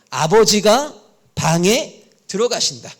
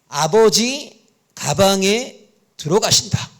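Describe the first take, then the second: First: The break comes right after abeojiga. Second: The break comes right after abeoji. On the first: Father goes into the room. "이렇게 읽을 수도 있단 말이에요" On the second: Father goes into the bag. "이렇게 읽는 랍비가 있을 수 있습니다"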